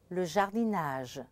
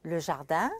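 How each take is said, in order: First: "jardinage" with een and a spoken N; sounded N. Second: "jardin" ending in a nasal vowel, rising; French "Le jardin" with silent final N. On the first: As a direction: open the nasal into in-age in "jardinage". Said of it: "the word derived from it". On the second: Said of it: "where we can make the contrast". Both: Shown as a demonstration.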